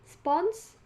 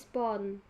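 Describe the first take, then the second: First: The word ends with an s sound. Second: The word ends with an n sound. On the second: "penghilangan fonem S"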